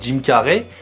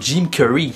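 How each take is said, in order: First: The name is said with a French accent. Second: The name is said with an English accent. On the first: "En français, on dirait" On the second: "En anglais, on dirait plutôt"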